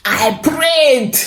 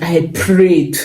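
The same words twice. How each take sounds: First: I prayed, repeated much higher for emphasis; emphatic repeat. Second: Said in the usual way. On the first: Shown as a demonstration. Recalling the embassy morning, she repeats it in a much higher voice. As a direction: jump way up on the repeat.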